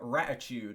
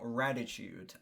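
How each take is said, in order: First: The middle consonant is a T sound. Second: The middle consonant is a D sound. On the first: The speaker calls it wrong. "I read the D as a T" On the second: The speaker calls it right. "not Raditude"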